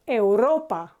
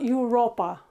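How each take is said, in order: First: It begins with an 'eh-oo' sound. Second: It begins with a 'you' sound. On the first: The speaker calls it right. "it's euro or Europa" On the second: The speaker calls it wrong. "in English this is you ... but in Spanish it's not Europa"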